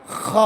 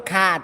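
First: খ rasped from the throat like clearing it; খ grated hard like a cough; খ with a rough throat scrape; correct throaty kh. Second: Mistaken খা, smooth and open; wrong open kha. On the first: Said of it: "এই জন্য বলতে হবে খ". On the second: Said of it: "উচ্চারণটা হবে না, ভুল". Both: Shown as a demonstration.

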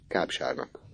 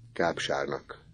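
First: Softer, hushed answer; quiet repeat. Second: Hushed, much softer; whispered. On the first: Misi answering Orci, hushed. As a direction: repeat it under breath. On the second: Misi whispering to Orci, hushed. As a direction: whisper it to your friend. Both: A narrator's reading. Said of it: "súgta neki Misi".

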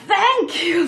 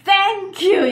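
First: "Thank" spat out with an exaggerated th and a laugh; kids overdoing th. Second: "Thank" said with a strong th, louder; th-heavy thank you. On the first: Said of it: "아이들이 그냥 막 이렇게 얘기를 해요". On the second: Shown as a demonstration. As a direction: exaggerate the th in "Thank". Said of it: "이렇게 하라고 그러면".

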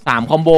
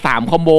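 Both takes have the same delivery.

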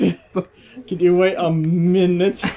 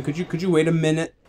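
First: "minute" with "min" loud and drawn out; mock it slowly, leaning hard on "min" in "minute"; exaggerated stress on MIN. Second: "minute" with a slight push on "min"; slight stress on MIN. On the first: Player mocking friend's line, "minute" hugely stressed on "min". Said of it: "stress on the min". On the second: Real, not acted. Friend slipping a joke to Kim, "minute" subtly stressed on "min". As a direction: lean lightly on the first syllable of "minute". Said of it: "put a very slight stress on the min".

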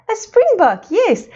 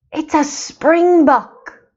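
First: Bright confirming echo. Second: Drawn-out answer. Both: Shown as a demonstration.

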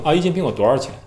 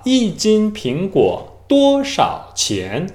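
First: Said in the usual way. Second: 一斤苹果多少钱 very slow, every tone fully sounded; stiff, over-precise tones; Korean learner's careful tones. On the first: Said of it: "但是中国人怎么说呢". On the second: Shown as a demonstration. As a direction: read 一斤苹果多少钱 syllable by syllable like a textbook. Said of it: "这就是韩国人的说法".

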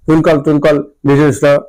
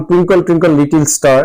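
First: টুইঙ্কল টুইঙ্কল লিটল স্টার mumbled with blurred, swallowed consonants; unclear mumbled pronunciation. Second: Said in the usual way. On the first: Retold or imitated. Teacher imitating a child's unclear rhyme, mumbling টুইঙ্কল টুইঙ্কল লিটল স্টার. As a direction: slur টুইঙ্কল টুইঙ্কল লিটল স্টার the way a child who learnt it by rote would. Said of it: "পরিষ্কার উচ্চারণ করে না". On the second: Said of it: "উচ্চারণ যখন করে তার অপরিষ্কারভাবে উচ্চারণ করে".

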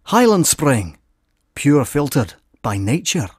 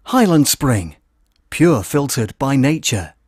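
First: A stronger Scottish burr on the ad line; more Scottish accent. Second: Scottish accent. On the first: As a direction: push the Scottish accent further, slow tagline. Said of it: "More Scottishy". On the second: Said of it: "Start again". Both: Shown as a demonstration.

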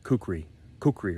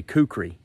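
First: "kukri" said in a supposedly fancier, non-Southern way; fancier pronunciation. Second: Said in the usual way. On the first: Shown as a demonstration. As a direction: say "kukri" the fancy way, without the Southern sound. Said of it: "probably something more fancy like". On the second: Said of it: "the way I say kukri".

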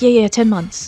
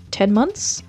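First: Eager agreement, falling on "ten months"; jumping on it. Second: "Ten months?" rising as a question; offering a guess. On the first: Suspect jumping on the officer's number, imitated quick agreement. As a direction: seize on "ten months" as settled fact. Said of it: "so she jumps on the number". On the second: Officer offering the suspect a number, rising question on "Ten months?". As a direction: float "Ten months?" with an upward ending. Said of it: "officer offers her a number". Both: Retold or imitated.

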